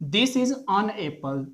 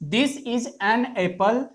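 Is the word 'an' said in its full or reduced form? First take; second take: reduced; full. First: The word 'an' is said with a reduced vowel. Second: The word 'an' is said with a full vowel. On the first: It is the ordinary everyday way of saying it. "ऑन Apple weak form है" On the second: The noun is being emphasized. "एन जो है ये हमारा strong form हो जाता है"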